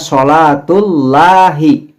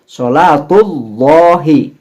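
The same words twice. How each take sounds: First: The L in Allah sounds light and thin. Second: The L in Allah sounds heavy and dark. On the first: The speaker calls it wrong. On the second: The speaker calls it right.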